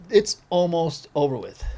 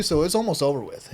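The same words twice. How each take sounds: First: "almost over with" said slowly, word by word; slow emphasis. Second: Said in the usual way. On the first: Real, not acted. Skater repeating that it's almost over with, slow emphasis on "almost". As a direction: draw out "almost" and "over" deliberately.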